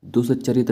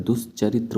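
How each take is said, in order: First: दुष्चरित ending in a plain t; दुष्चरित without a final "tra"; wrong form. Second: दुष्चरित्र ending in "tra"; correct form. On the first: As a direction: say दुष्चरित as "dus-cha-rit". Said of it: "नहीं होता है". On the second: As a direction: say दुष्चरित्र as "dus-cha-rit-ra". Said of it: "दुष्चरित्र होता है". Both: Shown as a demonstration.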